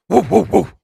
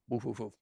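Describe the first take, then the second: First: The bark is strong and loud. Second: The bark is weak and quiet.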